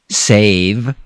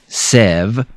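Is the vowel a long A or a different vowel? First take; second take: long A; different vowel. First: The vowel is a long A sound. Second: The vowel is not a long A sound. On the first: The speaker calls it right. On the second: The speaker calls it wrong.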